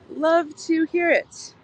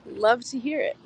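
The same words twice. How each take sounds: First: "Love to hear it" drawn out slowly, pitched high; emphatic repeat. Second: Said in the usual way. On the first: Real, not acted. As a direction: stretch "Love" and "hear", higher and slower. Emphatic repeat of the same words.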